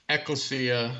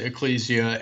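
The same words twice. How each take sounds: First: Ecclesia as he has always heard it; his familiar pronunciation. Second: Ecclesia as other people say it; other people's pronunciation. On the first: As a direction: demonstrate his own version of ecclesia. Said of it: "I've always heard it pronounced". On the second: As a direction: demonstrate the alternative version of ecclesia. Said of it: "Other people pronounce it". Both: Shown as a demonstration.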